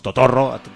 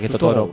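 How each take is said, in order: First: The r is a long rolled trill. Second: The r is a single short tap. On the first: This is the local Spanish way of saying the name. "pero nosotros decimos Totorro, castizamente" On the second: This is how the band itself says the name. "se pronuncia igual que Totoro, porque como no pronuncian las dobles R's"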